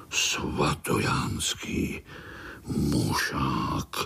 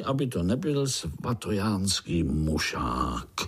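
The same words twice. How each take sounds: First: Slow, low, unvoiced and menacing; ominous whisper. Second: Said in the usual way. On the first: A narrator's reading. Narrator repeats the dreaded name to scared spiderlings, slow ominous whisper. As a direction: breathe the name like a dark threat. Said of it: "Zaznělo to tak hrozivě".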